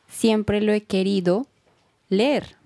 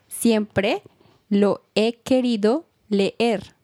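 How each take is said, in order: First: It is said at normal conversational speed. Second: It is said more slowly and carefully.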